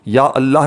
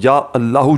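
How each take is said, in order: First: The word ends on the h, no final vowel. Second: The word ends with an added long u vowel. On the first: The speaker calls it wrong. "या अल्लाह नहीं पढ़ना" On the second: The speaker calls it right. "या अल्लाहू जो आपको सामने स्क्रीन पर दिख रहा है"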